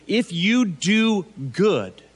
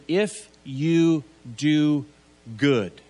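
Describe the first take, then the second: First: "If you do good." slow, with weight on "you"; slow emphatic "If you do good". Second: "If you do good." drawn out slowly, each word placed; slow stressed "If you do good". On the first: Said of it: "to rather step into this place of doing good". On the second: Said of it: "it's actually". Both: Shown as a demonstration.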